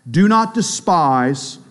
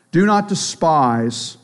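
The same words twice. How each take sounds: First: Not drawn out slowly; stress on not. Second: Not stretched and weighted; slow, pointed not; stress on not again. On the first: Preacher stressing not to the church. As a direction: lean hard on not, slowly. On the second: Preacher repeating the command with not stressed. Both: Shown as a demonstration.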